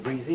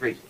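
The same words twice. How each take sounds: First: The word is said the southern way. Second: The word is said the Atlantic seaboard way. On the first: "I say greasy" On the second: "instead of greasy"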